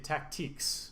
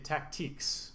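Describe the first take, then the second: First: The word is said in a French-like style. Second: The same.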